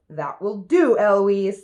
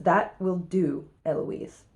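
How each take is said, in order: First: Mild mock shout; louder parroted reprimand; shouting back. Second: Drawn-out stern reprimand, unshouted; angry tutor. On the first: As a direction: copy the tutor, raising the volume. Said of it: "And then I shout". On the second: Acted. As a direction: end the matter slowly, softening on the name. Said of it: "Here's what makes Philip angry".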